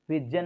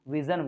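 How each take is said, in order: First: The middle consonant is a hard stop sound. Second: The middle consonant is a smooth buzzing sound. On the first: The speaker calls it wrong. "विजन नहीं बोलते" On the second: The speaker calls it right. "विजन बोलते हैं"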